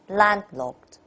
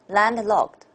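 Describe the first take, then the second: First: The first syllable is clearly stronger. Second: Both syllables have equal weight.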